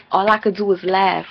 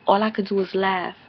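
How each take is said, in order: First: Loud mocking quote; mock reply, louder than the rest; Erica's line retold with a louder push; imitating Erica, louder. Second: Said in the usual way. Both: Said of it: "She's like".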